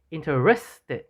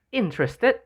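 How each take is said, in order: First: InteRESted, middle syllable stressed; stress on RES. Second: INterested, first syllable high and stressed. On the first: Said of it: "stresses the letters E and S in the middle". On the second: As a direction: hit the IN of interested. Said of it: "the initial letters I and an N are stressed". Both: Shown as a demonstration.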